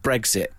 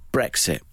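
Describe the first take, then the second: First: The middle consonants sound like 'gz'. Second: The middle consonants sound like 'ks'. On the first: The speaker calls it wrong. "there are people that call it Brexit. And that eggs" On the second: The speaker calls it right. "I pronounce it how it should be"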